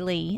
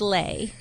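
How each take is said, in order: First: The vowel rhymes with see. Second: The vowel rhymes with day. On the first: This is how the speaker and father say the name. "And I say Lee, and my dad says Lee" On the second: This is how the mother says the name. "she goes, it's like Slay. So she says Lay"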